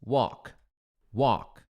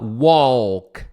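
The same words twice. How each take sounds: First: "Walk" with no L, like "wok"; silent L. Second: "walk" with the L sounded, drawn out; wrong pronunciation. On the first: Teacher modelling for students, silent L in "Walk". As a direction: say "Walk" leaving the L completely silent. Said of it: "esse L não é pronunciado". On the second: Teacher showing students what to avoid, L sounded in "walk". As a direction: say "walk" wrongly, voicing a clear L. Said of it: "você não vai falar". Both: Shown as a demonstration.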